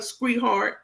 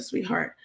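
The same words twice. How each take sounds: First: Sweetheart garbled into "skree-hart"; mock mispronunciation. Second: Said in the usual way. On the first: Quoting Crook's slip to viewers, sweetheart botched as "skree-hart". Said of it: "That's exactly what she said". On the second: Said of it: "Instead of sweetheart".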